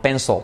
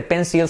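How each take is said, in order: First: "pencil" with no I, "PEN-sol"; dark-L PENCIL. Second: "pencil" with a clear I and light L; wrong PENCIL, "pénsil". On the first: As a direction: swallow the end of "pencil" into a dark L. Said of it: "que es de una L fuerte". ("pencil" como "pénsol", con L oscura) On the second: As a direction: say "pencil" as "PEN-sil". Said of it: "No se dice pencil". ("pencil" como "pénsil", con I clara) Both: Shown as a demonstration.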